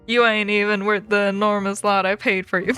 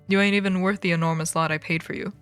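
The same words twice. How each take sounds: First: It is said in a put-on accent. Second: It is said in a natural voice.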